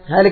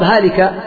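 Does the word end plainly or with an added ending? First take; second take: plainly; added ending. First: It ends plainly, rhyming with the name before. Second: It ends with an added grammatical ending. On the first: It is shaped to keep the rhyme. The speaker calls it wrong. "باعتبار السجع" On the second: It follows correct grammar. The speaker calls it right. "والصواب"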